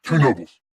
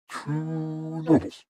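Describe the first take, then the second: First: Brisk "Two nobles", falling at the end; firm repeat. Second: Long, higher "two" before "nobles"; drawn-out price. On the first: Shopkeeper answering a customer who asked how much, firm. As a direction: say "Two" short and clear, falling through "nobles". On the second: Shopkeeper naming his price to a customer, drawn out. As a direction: stretch "two" slowly, then drop onto "nobles". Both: Acted.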